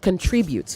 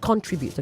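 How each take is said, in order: First: The stress is on the middle syllable. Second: The stress is not on the middle syllable. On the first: The speaker calls it right. "The emphasis is on tri" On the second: The speaker calls it wrong. "not contribute"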